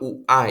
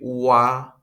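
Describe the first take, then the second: First: The two vowels are said separately. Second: The two vowels glide together as one. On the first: The speaker calls it wrong. "Bukan u-a ya" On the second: The speaker calls it right. "tapi ua"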